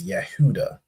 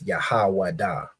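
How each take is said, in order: First: The name is said without a 'wa' sound. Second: The name is said with a 'wa' sound. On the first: The speaker calls it wrong. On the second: This is the name as the speaker holds it should be. The speaker calls it right. "we of course know it's"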